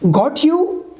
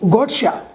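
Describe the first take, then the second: First: "You" is said in full, unlinked. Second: "You" blends with the t into "cha".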